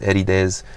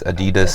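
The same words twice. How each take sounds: First: It is said the New Zealand way. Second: It is said the American way. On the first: "New Zealand it's Adidas" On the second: "in America it's Adidas"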